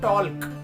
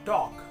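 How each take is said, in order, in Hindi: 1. L की ध्वनि बोली जाती है। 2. L की ध्वनि साइलेंट होती है। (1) "हम शायद कभी नहीं बोलते हैं टॉल्क" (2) "that L letter is silent in the word talk"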